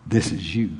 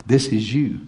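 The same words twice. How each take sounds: First: Hushed emphasis. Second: Said in the usual way. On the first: Shown as a demonstration.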